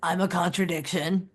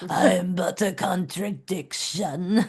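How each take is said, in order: First: It is said in a normal voice. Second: It is said in a Nosferatu voice.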